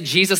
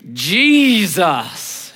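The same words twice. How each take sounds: First: The word is said in a plain, ordinary way. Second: The word is said in a drawn-out, exaggerated way. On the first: This is how the speaker's own group says it. "they don't say Jesus like we do" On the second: This is how another group of churchgoers says it. "They say, Jesus. And you can feel it"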